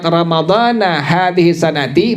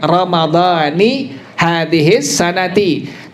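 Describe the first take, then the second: First: The first word ends with an 'a' vowel. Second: The first word ends with an 'i' vowel. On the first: The fast is for Ramadan of an unspecified year. The speaker calls it wrong. "maka maknanya aku niat berpuasa esok hari Ramadan entah tahun kapan" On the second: The fast is for Ramadan of this year. The speaker calls it right. "Kalau dibaca dengan kalimat Ramadhani hadhis sanati"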